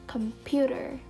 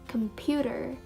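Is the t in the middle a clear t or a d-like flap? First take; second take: d-like flap; d-like flap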